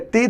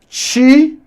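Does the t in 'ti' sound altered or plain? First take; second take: plain; altered. First: The t before i is a plain t. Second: The t before i has a shifted articulation. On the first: This is how it is said in the Northeast. "do Nordeste" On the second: This is how it is said in Brasília. "aqui em Brasília ... nós temos uma produção do som I diferenciado"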